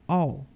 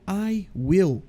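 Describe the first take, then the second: First: The words are joined into one syllable. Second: Both words are said in full. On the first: "quando a gente junta, a gente fala I'll" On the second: "ele seria o I will"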